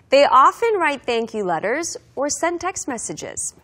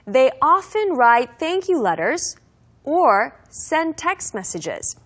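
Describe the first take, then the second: First: The sentence is said at a faster speed. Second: The sentence is said at a normal speed.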